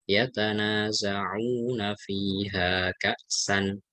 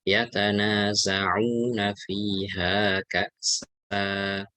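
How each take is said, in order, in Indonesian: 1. Kata terakhir berakhir dengan vokal pendek dan n. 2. Kata terakhir berakhir dengan vokal panjang. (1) "kalau kaksan pendek ya" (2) "Kalau mau kaksa yang panjang. ... Dua harokat"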